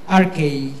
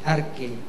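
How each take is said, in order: First: The word is given its Greek pronunciation. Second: The word is given its English pronunciation. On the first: "sa Griego po ay" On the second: "sa English na pronunciation ay"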